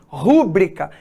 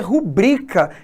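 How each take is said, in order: First: The stress is on the first syllable. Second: The stress is on the second syllable. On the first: The speaker calls it wrong. "essas palavras não existem" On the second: The speaker calls it right. "o correto é rubrica"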